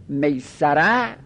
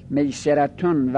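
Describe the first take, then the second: First: میسره with a short a after the s; fatha reading. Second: میسرتون with a short e after the s; kasra reading. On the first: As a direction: say میسره as "meysara", middle vowel a. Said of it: "به فتح هم خونده شده". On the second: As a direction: say میسرتون as "meyseratun". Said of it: "میسره به فتح هم خونده شده". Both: Shown as a demonstration.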